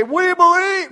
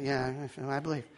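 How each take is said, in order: First: High, loud cry of belief; enthusiastic. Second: Low, soft half-hearted assent; unenthusiastic. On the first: Congregation answering the preacher's question, enthusiastic high shout. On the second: Congregation member reluctantly answering the preacher, half-hearted and soft. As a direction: mumble it low, with no enthusiasm. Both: Retold or imitated. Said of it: "you wouldn't be that enthusiastic".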